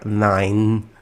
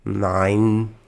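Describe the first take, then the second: The two takes are said the same way.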